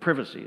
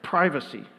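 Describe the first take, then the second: First: It is said with a British pronunciation. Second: It is said with an American pronunciation.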